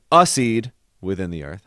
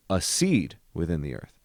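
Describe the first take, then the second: First: A seed within the earth with the a stressed like a downbeat; evenly stressed reading. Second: A as a light pickup, weight landing on seed. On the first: Composer showing the wrong rhythm, a stressed. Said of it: "I'm not gonna say". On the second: Composer showing the right rhythm, pickup into seed. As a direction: toss off the a and lean into seed. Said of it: "I'm saying". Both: Shown as a demonstration.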